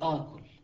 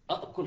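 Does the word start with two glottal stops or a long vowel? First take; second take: long vowel; two stops. First: It starts with one stop and a long vowel. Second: It starts with two separate glottal stops. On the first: The speaker calls it right. "تقول آكل" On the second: The speaker calls it wrong. "أكل خطأ"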